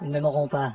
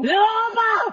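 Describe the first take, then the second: First: It is said at normal volume. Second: It is said loudly.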